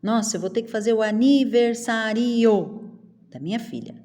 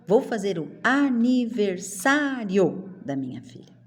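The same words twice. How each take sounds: First: "aniversário" overdone as sa-RI-o; mock mispronunciation. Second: "aniversário" as a-ni-ver-SÁ-rio; joined diphthong. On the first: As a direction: act out the sentence with a separate ri. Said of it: "Não". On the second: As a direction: stress SÁ and keep rio together. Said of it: "Eu falo". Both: Shown as a demonstration.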